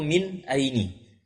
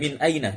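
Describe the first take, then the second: First: The second word ends in an i vowel. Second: The second word ends in an a vowel. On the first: The speaker calls it wrong. "atau min aini" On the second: The speaker calls it right. "sehingga bentuknya demikian"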